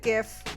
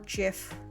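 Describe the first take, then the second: First: It begins with a hard G sound. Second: It begins with a soft G sound.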